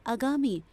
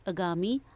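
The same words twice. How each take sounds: First: Said in the usual way. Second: आगामी with a short opening a, ə-gaami; wrong form read. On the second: Shown as a demonstration. Teacher showing children the mistake: आगामी with a short first a. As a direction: start आगामी on a short a with a small rise. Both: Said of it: "आ की मात्रा होनी चाहिए".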